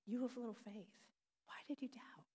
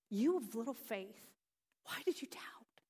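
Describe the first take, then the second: First: It sounds gentle and loving, lightly chiding. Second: It sounds exasperated and a little angry.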